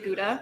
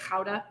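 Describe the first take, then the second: First: It is said with a Michigan pronunciation. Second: It is said with a Dutch throaty first sound.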